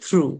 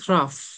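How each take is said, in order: First: The word ends with a vowel sound. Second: The word ends with an f sound. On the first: The speaker calls it right. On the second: The speaker calls it wrong.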